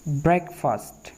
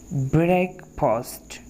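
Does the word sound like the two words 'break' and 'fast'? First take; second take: no; yes. First: It does not sound like break plus fast. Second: It sounds like the separate words break and fast. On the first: The speaker calls it right. "आपने इसको कैसे pronounce करना है?" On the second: The speaker calls it wrong. "ब्रेक एंड फास्ट, क्योंकि यहाँ पर ये है ब्रेक और ये है फास्ट"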